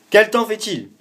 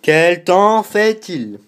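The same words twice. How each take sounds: First: High, loud question to the phone; loud repeat to Siri. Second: Very slow, high, loud question to Siri; slow, loud repeat. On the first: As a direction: repeat it loudly for the assistant. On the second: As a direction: spell it out slowly so the phone understands. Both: Real, not acted. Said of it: "je vais lui redemander".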